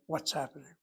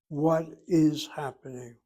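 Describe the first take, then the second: First: The words are run together as one unit. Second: The three words are said separately. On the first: The speaker calls it right. "We jam the words together, ram them together" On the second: The speaker calls it wrong. "Separate your three words"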